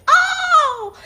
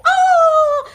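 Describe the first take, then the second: First: High, loud "oh" screamed out; boy's pained scream. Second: Mountain echo of a high, loud "oh"; echoed scream. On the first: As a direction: scream out in pain across a mountain. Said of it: "hurts himself and screams". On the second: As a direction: throw the scream back as an echo. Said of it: "hears a voice repeating somewhere in the mountain". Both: A narrator's reading.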